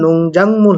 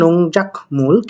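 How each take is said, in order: First: The middle syllable ends in an ng sound. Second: The middle syllable ends in a k sound. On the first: The speaker calls it right. "নং জাং মূল হবে" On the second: The speaker calls it wrong. "এটা আসলে নং জাক মূল হবে না"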